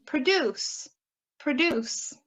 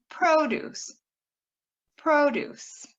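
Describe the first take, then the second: First: PRODUCE as pruh-DUCE, stress on DUCE; weak first syllable, lean on the end of "produce"; second-syllable stress. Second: PRODUCE as PRO-duce, long stressed PRO; first-syllable stress. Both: Shown as a demonstration. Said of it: "Same thing with".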